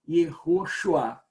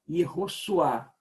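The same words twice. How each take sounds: First: The middle consonant is an sh sound. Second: The middle consonant is a plain s sound. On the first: This is the form that was hard for them to say. "para eles seria muito difícil dizer" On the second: This is how those who could not say sh would say it. "Possivelmente eles iriam dizer"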